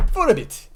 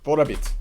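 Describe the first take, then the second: First: "For a bit" jumping high, then dropping; high-pitched repeat. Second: Said in the usual way. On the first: Pretend. Streamer typing, repeats "For a bit" high-pitched. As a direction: squeak "For a bit" much higher.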